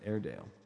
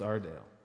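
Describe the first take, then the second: First: The first syllable sounds like 'air'. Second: The first syllable sounds like 'ar'. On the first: The speaker calls it wrong. "so many people pronounce it Airedale" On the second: The speaker calls it right. "But it's Ardale"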